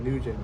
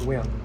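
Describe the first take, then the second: First: The name has an American English pronunciation. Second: The name has a Vietnamese pronunciation. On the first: "for American they pronounce it Nugent" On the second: "in Vietnamese it's pronounced Nguyen"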